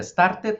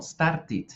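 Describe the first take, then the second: First: "started" said "star-tet"; wrong ending. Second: "started" said "star-tid"; correct ID ending. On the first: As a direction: give "started" an E in the last syllable. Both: Shown as a demonstration. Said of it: "no, started".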